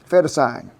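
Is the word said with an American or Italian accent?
American. It is said with a plain American accent.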